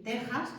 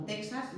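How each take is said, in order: First: "Texas" as TE-jas; "Texas", its X as a velar J. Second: "Texas" as TEK-sas; "Texas" with a K before the S; wrong KS reading. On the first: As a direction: say "Texas" with the Spanish throaty J. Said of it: "tenemos que decir Texas". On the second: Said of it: "no Texas ni México". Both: Shown as a demonstration.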